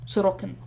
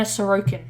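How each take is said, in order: First: Sorokin said as the proper pronunciation; careful corrected saying of Sorokin; pronunciation demo. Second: Said in the usual way. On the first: Shown as a demonstration. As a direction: show how Sorokin should be pronounced. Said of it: "is how you would pronounce it".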